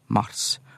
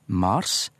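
First: The a vowel is short. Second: The a vowel is long. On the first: It names the month. "det blir uttalt med kortvokal" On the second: It names the god. "uttale gudenavnet med lang A"

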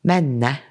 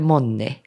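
First: It is said in the north-fjord Nesseby form. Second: It is said in the Kautokeino dialect form. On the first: "på nordsiden av fjorden, så sier de menne" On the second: "i Kautokeino så heter det monni"

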